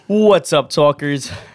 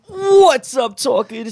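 First: It is said with low, flat energy. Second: It is said with high, lively energy.

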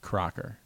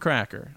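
First: The first vowel sounds like in 'crock'. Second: The first vowel sounds like in 'crack'. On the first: The speaker calls it right. "Pronounces his name Crocker" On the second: The speaker calls it wrong. "we said it out loud the way that it's spelled"

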